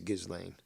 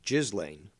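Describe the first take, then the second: First: The first syllable does not sound like 'jizz'. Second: The first syllable sounds like 'jizz'. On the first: The speaker calls it right. "it's not the way you pronounce it. It's Ghislaine" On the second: The speaker calls it wrong. "I used to say Ghislaine, which is what I heard, but that's apparently incorrect"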